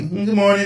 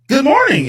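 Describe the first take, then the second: First: It is said in a flat, unenthusiastic way. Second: It is said in a bubbly, cheerful way.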